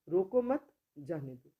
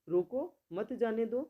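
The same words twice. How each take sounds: First: There is a pause right after 'mat'. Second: There is a pause right after 'roko'.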